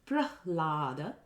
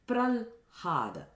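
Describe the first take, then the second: First: The h sound comes before the l. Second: The h sound comes after the l. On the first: The speaker calls it right. "instead of Prahlada, which is Hlada" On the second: The speaker calls it wrong. "where you interchange the h sound and the l sound"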